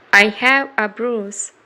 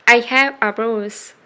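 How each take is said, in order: Both takes have the same delivery.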